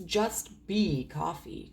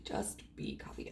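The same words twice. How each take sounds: First: Drawn-out, slow delivery; slow reading. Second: Barely voiced, low and very soft; hushed repeat. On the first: Reader reading out a short line, slow and drawn-out. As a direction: read it out slowly, stretching the words. Slow read, then hushed repeat. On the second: Repeating it to oneself, hushed and barely voiced. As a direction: say it under your breath. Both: Real, not acted.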